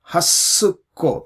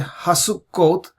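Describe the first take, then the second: First: The s sound is doubled and held longer. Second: The s sound is short and single. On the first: The speaker calls it right. "we say Hasukkot" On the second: The speaker calls it wrong. "we don't say Hasukkot"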